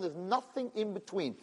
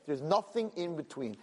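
First: Softer and slow, leaning on nothing; slow final verdict. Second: Said in the usual way. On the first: Retold or imitated. Hashem closing the matter to Moshe, slow and hushed. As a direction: say nothing slowly and quietly, as the last word. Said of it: "said Hashem".

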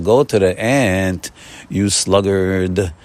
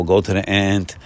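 First: Slow, weighty: go to the ant, you sluggard; slow emphatic quote. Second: Said in the usual way. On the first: Shown as a demonstration. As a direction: stretch each word like scripture. Quoting Proverbs, slowly.

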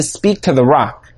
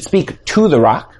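First: Said in the usual way. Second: "to" picked out as the word in question; stress on TO. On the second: Shown as a demonstration. Teacher correcting how the command is understood, stressing TO. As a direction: lean on TO in "speak to the rock". Contrasts speaking to with standing by.

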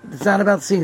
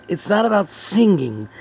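First: About lifted, not left light; stress on about. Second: Not pressed firmly, rest even; stress on not. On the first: Rabbi repeating his point, now stressing about. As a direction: push the weight onto "about". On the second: Rabbi correcting his class, stressing not. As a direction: lean on "not" to correct the listeners. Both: Shown as a demonstration.

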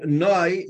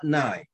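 First: Noi, drawn out slow with an "oy" vowel; slow, corrective Noi with oy; Noi ending. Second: Nai with an "eye" vowel; Nai ending. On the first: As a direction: stretch Noi, rhyming with boy. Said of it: "it has to end off". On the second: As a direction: say Nai to rhyme with sky. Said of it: "not Nai". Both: Shown as a demonstration.

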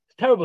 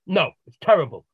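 First: "terrible" punched higher and louder; emphatic. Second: Said in the usual way. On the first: Retold or imitated. Client repeating to the therapist, louder "terrible". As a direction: hit "terrible" hard in frustration.

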